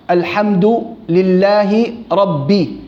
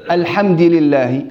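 First: "الحمد" ending in u, "alhamdu"; slowly, "الحمد" with damma and "ربي" ending in i; careful "alhamdu lillahi rabbi" for "الحمد لله ربي"; correct vowel demo. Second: "الحمد" ending in an i, "alhamdi"; wrong vowel demo. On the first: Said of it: "مش رب". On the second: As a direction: say "الحمد" with a final kasra, alhamdi. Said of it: "لا،". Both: Shown as a demonstration.

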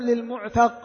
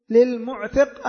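First: للمعتق said "mu'taq", with an a before the final qaf; fatha on ta. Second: للمعتق said "mu'tiq", with an i before the final qaf; kasra on ta. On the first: Teacher offering students the other option, للمعتق with short a: lil-mu'taq. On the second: Teacher asking students which word, للمعتق with short i: lil-mu'tiq. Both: Shown as a demonstration. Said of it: "للمعتق الذي هو السيد".

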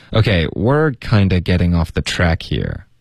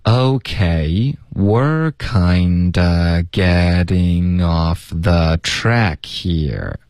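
First: Said in the usual way. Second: Very slow, word-linking teacher model; slow linking demo. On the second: Shown as a demonstration. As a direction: stretch it out for learners to follow. (放慢示范连读) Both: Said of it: "我们请老师来先示范一下".

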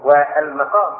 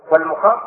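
First: "والمقام" said wal-maqam, with a; fatha on the mim. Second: "والمقام" said wal-muqam, with u; damma on the mim. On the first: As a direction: give "والمقام" a short a after the mim. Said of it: "بالفتح على قراءة الجمهور". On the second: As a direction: give "والمقام" a short u after the mim. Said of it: "على قراءة ابن كثير بضم الميم". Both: Shown as a demonstration.

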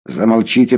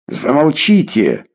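First: Said in the usual way. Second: Higher, drawn-out cry to silence him; restrained narrated yell, pitched up; mild shout. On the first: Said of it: "Стараясь держаться спокойно". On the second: A narrator's reading. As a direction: cut him off with an understated shout. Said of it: "крикнул я".

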